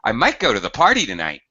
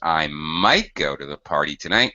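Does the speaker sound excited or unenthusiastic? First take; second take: excited; unenthusiastic. First: The voice sounds lively and excited. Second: The voice sounds flat and unenthusiastic. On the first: The chance of going is above half. "I'm excited about it" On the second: The chance of going is below half. "probably means it's less than fifty percent"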